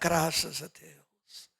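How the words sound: It is said flatly, as a routine phrase. The phrase is uttered out of habit without meaning it. The speaker calls it wrong.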